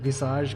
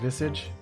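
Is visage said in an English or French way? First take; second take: French; English. First: The word is pronounced the French way. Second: The word is pronounced the English way. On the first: "people have like looked at me funny because I said visage" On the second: "it's apparently just visage in English"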